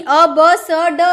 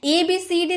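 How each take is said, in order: First: "अ ब स ड" as letter sounds, aw, buh, suh, duh; phonic sounds. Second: "ए बी सी डी" as alphabet names with long ee endings; letter names. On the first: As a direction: sound out "अ ब स ड" with open vowels. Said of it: "ऐसे आपको पढ़ना है". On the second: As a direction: recite "ए बी सी डी" as ay, bee, see, dee. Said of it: "ए बी सी डी नहीं". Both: Shown as a demonstration.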